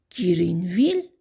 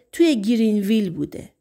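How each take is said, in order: First: Quick questioning rise on گرینویل, mildly surprised; puzzled echo. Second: Said in the usual way. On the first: Acted. Sheriff echoing the town name back, mildly surprised.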